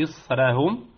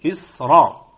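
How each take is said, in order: First: إسرهم read with a thin, light ra; wrong reading. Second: إسرا with a full, heavy ra, said louder; correct heavy ra. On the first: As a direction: say إسرهم with the ra thinned, as the mistake. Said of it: "لا نقول". (نطق خاطئ: راء مرققة في إسرهم) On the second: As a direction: give the ra in إسرا its full heaviness. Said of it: "وإنما نقول". (راء مفخمة في إسرا بصوت أعلى) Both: Shown as a demonstration.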